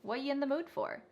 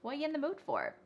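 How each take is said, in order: No difference in how they are said.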